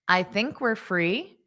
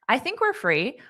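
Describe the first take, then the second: First: The sentence is spoken at a slower pace. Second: The sentence is spoken at a faster pace. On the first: "That was actually slower than a native pace" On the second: "I'll say it at a native pace"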